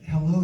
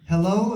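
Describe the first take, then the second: First: It is said quietly. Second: It is said loudly.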